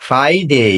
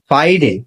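First: "ফ্রাইডে" drawn out as "FAI-dey"; correct Friday. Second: "ফ্রাইডে" said as "FAI-de", short ending; mispronounced Friday. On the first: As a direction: model "ফ্রাইডে" with a long gliding "dey". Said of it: "শুদ্ধ উচ্চারণ করতে". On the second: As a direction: say "ফ্রাইডে" the common way with a brief "de". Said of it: "not Friday". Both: Shown as a demonstration.

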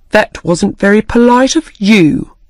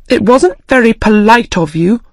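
First: Said in the usual way. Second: A touch of angry reproach; angrily. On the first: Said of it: "said the March Hare". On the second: Acted. Alice mildly angry, rebuking the March Hare. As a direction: mildly scold him for rudeness. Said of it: "Alice said angrily".

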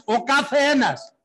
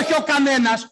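First: Καθένας stretched out slowly at higher pitch; stress on καθένας. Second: Raised, insistent correction landing on κανένας; stress on κανένας. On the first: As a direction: spell out καθένας slowly, as the corrected word. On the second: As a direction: reject the word κανένας, pitched up. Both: Real, not acted. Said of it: "πώς να το πω".

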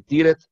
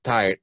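First: Tired read as spelled, tee-red, with loud stress; wrong pronunciation. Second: Tired said with the i as ai, tai-erd; correct pronunciation. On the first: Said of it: "Tired no existe". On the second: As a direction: model the right tai-erd. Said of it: "Lo correcto es tired". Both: Shown as a demonstration.

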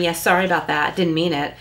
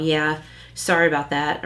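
First: Offhand insincere apology; mock apology with a sarcastic edge. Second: Offhand, insincere sorry; lightly sarcastic shrug of a sorry. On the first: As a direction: brush it off, not sorry at all. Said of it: "Well, that's sarcasm". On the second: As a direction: throw the apology away. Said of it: "that's sarcastic". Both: Shown as a demonstration.

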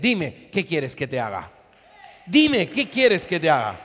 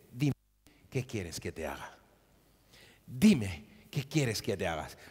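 First: Louder, proclaiming Jesus's question; shouted question. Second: Much lower, much softer tender question; gentle Jesus. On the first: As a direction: cry it out to the whole church. Jesus voiced, preacher shouting. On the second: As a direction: ask it softly, almost confiding. Jesus voiced in the story. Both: Retold or imitated.

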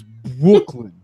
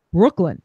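First: Loud, drawn-out "Brooklyn" with the R dropped; Brooklyn without the R. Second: New York "Brooklyn", said compactly; New York accent. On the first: Shown as a demonstration. Correcting the quote because there was no R, exaggerated R-less "Brooklyn". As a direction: stretch "Brooklyn" out in New York style, no R. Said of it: "incorrect 'cause there was no R in it". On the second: Retold or imitated. Dinner guest answers after his California accent drops, New York accent. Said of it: "his California accent drops, and he goes".

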